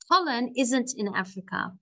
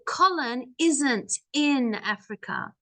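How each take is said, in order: First: The sentence is spoken quickly. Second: The sentence is spoken very slowly. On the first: "if I say it fast" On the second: "I said that very slow"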